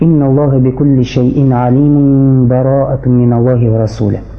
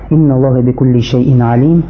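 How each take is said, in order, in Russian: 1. Стих идёт без паузы после 'alim'. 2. Стих останавливается после 'alim', затем продолжается.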